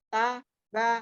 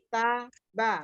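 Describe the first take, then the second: No difference in how they are said.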